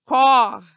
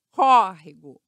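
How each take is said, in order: First: Córrego broken into cór, re, go with pauses; córrego chopped up, loudest on the first syllable. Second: Córrego in one piece, loud on the first syllable; Córrego with a strong open first vowel, falling after; stressed first syllable. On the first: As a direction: punch cór, then drop re and go separately. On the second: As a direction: punch the open Cór in Córrego. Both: Shown as a demonstration. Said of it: "o mesmo caso de lágrima".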